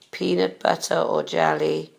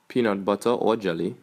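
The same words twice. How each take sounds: First: It is said in a Welsh English accent. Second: It is said in a Trinidadian English accent.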